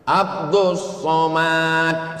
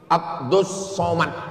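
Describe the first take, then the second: First: Some vowels in the name are drawn out long. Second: All vowels in the name are kept short. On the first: The speaker calls it wrong. "salah. Karena semuanya pendek" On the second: The speaker calls it right. "nggak ada yang panjang"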